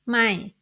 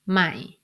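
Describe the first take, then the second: First: The syllable is said with a falling tone. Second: The syllable is said with a low tone. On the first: It means no or not. "with this tone mark ไม้เอก tone mark it gives the following tone" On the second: It means new. "it gives a low tone not a falling tone"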